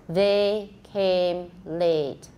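It starts with TH and has long pure vowels. The speaker calls it right. "You won't see my mouth move for the E part"

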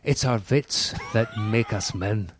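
It is said in an imitated Scottish accent.

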